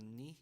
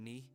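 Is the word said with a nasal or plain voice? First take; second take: nasal; plain. First: The word is said with a nasal sound. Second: The word is said without a nasal sound. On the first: The speaker calls it right. "it's more of a knee sound" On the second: The speaker calls it wrong. "as opposed to saying knee"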